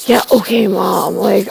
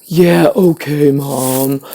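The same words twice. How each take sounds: First: Put-on a teen waving off his mother; mock dismissive brush-off. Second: Slow, flat yeah okay Mom that sinks at the end; mocking a teen's bored reply; drawn-out dismissive drone. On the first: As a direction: brush Mom off like a bored teen. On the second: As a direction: drag it out like you couldn't care less. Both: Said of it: "it's like".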